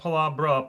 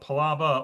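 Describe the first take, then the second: First: The name is said as 'Palabra'. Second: The name is said as 'Palava'. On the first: The speaker calls it wrong. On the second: The speaker calls it right.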